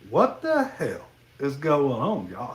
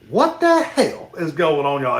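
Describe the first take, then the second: First: It is said flatly with no emphasis. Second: It is said with some rising energy.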